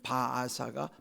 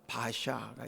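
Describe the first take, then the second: First: The name is said slowly in three syllables. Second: The name is said quickly in two syllables.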